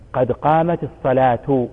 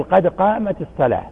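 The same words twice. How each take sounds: First: Slowly, "قد قامت الصلاة" ending in a spoken "tu"; "الصلاة" with the damma heard, "selatu". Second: "الصلاة" ending on a silent h, "sela"; "الصلاة" stopped, no damma. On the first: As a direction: sound the final taa with damma. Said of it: "نضم لأنها فاعل". ("الصلاة" بالتاء المضمومة) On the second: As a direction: stop on "الصلاة" without the vowel. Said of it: "لا نضم". (الوقف على "الصلاة" بالسكون) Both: Shown as a demonstration.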